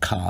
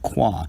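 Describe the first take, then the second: First: The K is followed directly by the vowel. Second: The K is followed by a W sound. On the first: The speaker calls it wrong. "slip up and refer to it as as Kadash or pronounce the character Ka" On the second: The speaker calls it right. "instead of Kwa"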